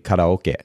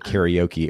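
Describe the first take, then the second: First: It is said with the original Japanese pronunciation. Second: It is said with an American English pronunciation. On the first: "in Japanese is actually karaoke" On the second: "we go karaoke"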